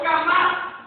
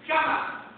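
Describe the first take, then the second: First: "jamás" hit louder, rising at the end; emphatic repetition. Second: Said in the usual way. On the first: Acted. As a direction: drive home the repeated "jamás" with force.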